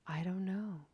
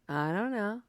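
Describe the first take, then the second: First: It is said in a soft, gentle tone. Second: It is said in a snarky, sarcastic tone. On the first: "Is there some softness to it?" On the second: "Are you saying it in a snarky way?"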